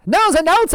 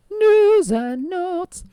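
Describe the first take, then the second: First: High, quick announcer call; snappy announcer. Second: High, slow drawn-out announcement; drawn-out announcer. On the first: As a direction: snap it out like a radio host. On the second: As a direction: stretch it out like an old radio jingle. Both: Acted. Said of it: "keep up this old-timey voice".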